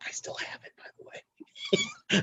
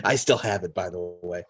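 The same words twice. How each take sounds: First: Hushed, voiceless whisper; whispered aside. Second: Said in the usual way. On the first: Real, not acted. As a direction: whisper it like a secret boast.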